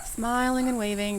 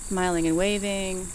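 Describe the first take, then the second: First: "Smiling and waving" said brightly as a fake cheer; a neighbour-greeting smile in the words "Smiling and waving". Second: "Smiling and waving" muttered through a fixed smile; the words "Smiling and waving" kept cheerful while falling apart. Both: Real, not acted. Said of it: "just smile and wave".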